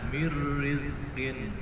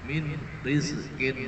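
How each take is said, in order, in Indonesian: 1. Bunyi n hilang dan melebur menjadi bunyi r yang ganda. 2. Bunyi n terdengar jelas sebelum r. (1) "dibaca mir rizqin" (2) "asalnya seperti itu"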